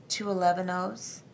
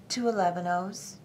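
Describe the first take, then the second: No difference in how they are said.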